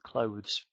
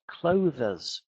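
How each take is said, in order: First: The word is said with one syllable. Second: The word is said with two syllables. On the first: The speaker calls it right. "one syllable" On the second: The speaker calls it wrong. "I heard a lot of teachers say"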